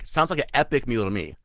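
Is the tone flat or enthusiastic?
enthusiastic. It is said with lively enthusiasm.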